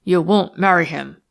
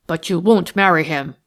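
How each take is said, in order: First: Won't hit again, rough and a bit louder; rough repeat. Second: Won't pressed hard in a louder passionate cry; passionate outburst. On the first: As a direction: bark the repeat, leaning on won't. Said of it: "repeated Felkin roughly". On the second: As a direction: push hard on won't, passion boiling over. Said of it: "The exclamation seemed to come straight from a heart brimful of passion". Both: A narrator's reading.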